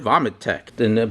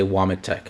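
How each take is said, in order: First: The name begins with a V sound. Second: The name begins with a W sound. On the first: This is how it is said in Poland. "the W in Poland is actually pronounced as a V" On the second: This is how it is said in America. "in America it's W"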